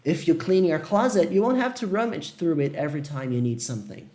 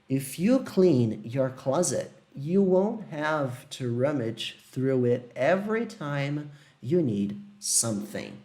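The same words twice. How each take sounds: First: It is read at normal speed. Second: It is read slowly.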